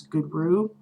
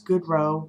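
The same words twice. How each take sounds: First: Goodrue ending in "roo"; alternate pronunciation. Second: Goodrow ending in "row", long O; own pronunciation. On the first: Vlogger giving the other way she has heard, GOOD-roo. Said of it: "I've heard also as". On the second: Vlogger introducing the name her own way, GOOD-roh. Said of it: "I pronounce it Goodrow". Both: Shown as a demonstration.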